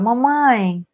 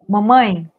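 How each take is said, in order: First: It is said with childlike, girlish inflections. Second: It is said with mature, adult-sounding inflections. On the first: A little girl is speaking. "diferente da menina que fala" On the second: A grown woman is speaking. "A mulher fala"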